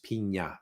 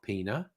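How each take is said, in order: First: The middle consonant is an 'ny' sound. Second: The middle consonant is a plain 'n' sound. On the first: The speaker calls it right. "There's that little accent over the N. It's pina" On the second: The speaker calls it wrong. "It's not pina"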